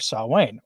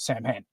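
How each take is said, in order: First: It is said with a traditional, non-American pronunciation. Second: It is said with an Americanized pronunciation.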